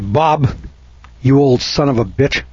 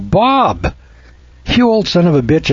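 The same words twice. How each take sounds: First: The tone is cold and hostile. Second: The tone is warm and friendly. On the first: It is an insult. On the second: It is an affectionate greeting.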